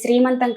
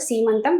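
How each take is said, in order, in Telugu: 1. ఈ పదం 'sree' తో మొదలవుతుంది, r తో. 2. ఈ పదం 'see' తో మొదలవుతుంది, r లేకుండా. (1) "అది శ్రీమంతం కాదు" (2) "సీమంతం. మీరు కరెక్ట్ గా ప్రొనౌన్సియేషన్ చెప్పారు"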